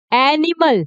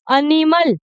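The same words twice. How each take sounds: First: एनिमल starting on a wide 'ae' as in "cat"; correct pronunciation. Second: एनिमल said as 'uh-nimal' with a short first vowel; wrong pronunciation. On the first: Teacher gives learners the right sound, correct pronunciation. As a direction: open the first vowel of एनिमल fully, 'ae-nimal'. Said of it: "क्या sound कर रहा है". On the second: Teacher warns learners this will be wrong, wrong pronunciation. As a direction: start एनिमल on a weak 'uh'. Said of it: "ये गलत हो जाएगा". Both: Shown as a demonstration.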